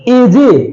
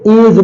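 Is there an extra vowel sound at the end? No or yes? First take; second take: yes; no. First: A vowel sound is added after the final consonant. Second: It ends on the consonant, with no final vowel. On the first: The speaker calls it wrong. "एजे तो बोलते नहीं है" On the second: The speaker calls it right. "इसे एज बोलते हैं, ई silent है"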